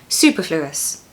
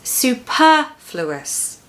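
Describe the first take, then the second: First: The stress is not on the second syllable. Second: The stress is on the second syllable. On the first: The speaker calls it wrong. "if you don't do that, it's going to sound like superfluous" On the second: The speaker calls it right. "make sure that you stress the second syllable"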